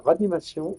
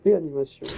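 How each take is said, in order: First: The word starts with 'ra', with no 'é' sound. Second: The word starts with 'réa', with an 'é' sound. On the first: The speaker calls it wrong. "On dit pas ranimation" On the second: The speaker calls it right. "on dit réanimation"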